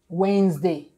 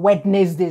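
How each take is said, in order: First: The middle letters are not pronounced. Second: Every letter is pronounced as written.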